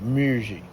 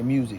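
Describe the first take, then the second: First: The word is said with an added R sound. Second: The word is said plainly without an R sound. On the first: "they say music with an R in it" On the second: "They don't say music"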